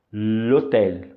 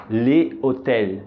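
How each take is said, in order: First: "l'hôtel" junto, lotel, sem o e do le; l'hôtel contraído. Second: "le hôtel" devagar, le e otel bem separados. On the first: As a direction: diga "l'hôtel" ligando o l direto ao otel. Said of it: "e a pronúncia fica". ("l'hôtel" com elisão, numa palavra só) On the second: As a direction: diga "le hôtel" pronunciando o le inteiro, sem contração. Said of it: "outro exemplo de contração". ("le hôtel" lento, sem elisão) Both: Shown as a demonstration.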